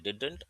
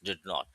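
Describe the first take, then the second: First: It is said as one contracted word. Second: It is said as two separate words. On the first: "अगर आप एक साथ पढ़ना चाहते हैं तो आप पढ़ोगे डिडंट" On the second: "अलग अलग पढ़ोगे तो टू टू अलग वर्ड्स"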